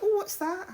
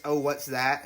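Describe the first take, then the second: First: High-pitched, soft English accent. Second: Said in the usual way. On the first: Shown as a demonstration. Showing his English anchor phrase, high English accent. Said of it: "an English accent". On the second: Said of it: "an English accent is".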